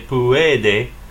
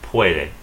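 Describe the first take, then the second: First: The word is split into three separate syllables. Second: The word is said in two syllables. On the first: The speaker calls it wrong. "don't say" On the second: The speaker calls it right.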